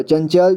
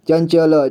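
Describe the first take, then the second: First: Said in the usual way. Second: चंचल split as "chan-cha-la"; चंचल with final ल voiced as "la"; sounded out. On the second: Shown as a demonstration. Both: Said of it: "इसे संजय पढ़ेंगे".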